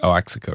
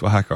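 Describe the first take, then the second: First: "Oaxaca" said oh-AX-a-ka; "Oaxaca" as oh-AKS-uh-kuh; mistaken pronunciation. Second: "Oaxaca" said wa-HA-ka; "Oaxaca" as wuh-HAH-kuh; correct pronunciation. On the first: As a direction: say "Oaxaca" as spelled, with a hard X. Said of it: "I thought it was, like". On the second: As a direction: say "Oaxaca" with a silent X, starting with a W. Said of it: "was pronounced Oaxaca". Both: Shown as a demonstration.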